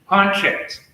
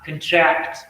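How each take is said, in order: First: The stress is on the first syllable. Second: The stress is on the second syllable. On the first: It is used as a noun. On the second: It is used as a verb. "verb. So you'll see that stress shift to second syllable"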